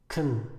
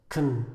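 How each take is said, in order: Both takes have the same delivery.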